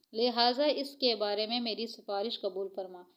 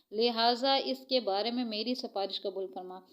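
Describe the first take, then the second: The two takes are said the same way.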